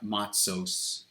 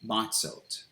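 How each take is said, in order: First: The word ends with an S sound. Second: The word ends with a T sound. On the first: "where they're accurately pronouncing it as an S sound" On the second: "they may just say"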